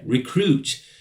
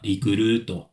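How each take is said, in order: First: It is said with an English accent. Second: It is said with a Japanese accent.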